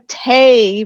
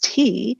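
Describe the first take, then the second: First: The vowel sounds like 'ay'. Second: The vowel sounds like 'ee'. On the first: This is an old-fashioned Northern Irish pronunciation. "this pronunciation of A for what in standard English would be E" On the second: This is the standard English pronunciation. "what in standard English would be E"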